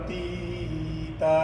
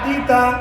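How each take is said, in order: First: The vowels are stretched out long. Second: The vowels are said short and quick. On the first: The speaker calls it wrong. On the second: The speaker calls it right.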